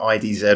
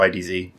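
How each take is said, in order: First: The final letter is pronounced 'zed'. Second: The final letter is pronounced 'zee'.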